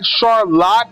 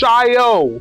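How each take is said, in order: First: The word ends with a 'lot' sound. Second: The word ends with a 'yo' sound. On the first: The speaker calls it wrong. "It's not Charlotte" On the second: The speaker calls it right. "it's Chaillot"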